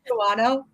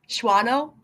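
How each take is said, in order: First: The name is said the way it is spelled. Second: The name is said in a shortened form. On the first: The speaker calls it wrong. "I want to say Shawano, because that's how it looks" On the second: The speaker calls it right.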